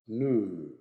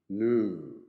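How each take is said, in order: First: It is said in an American accent. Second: The same.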